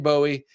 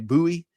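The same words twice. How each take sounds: First: The name is said the way Ohio speakers say it. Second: The name is said the way Southern speakers say it. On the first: "I say Bowie. That's how I learned it way up in Ohio" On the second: "down south you say Bowie"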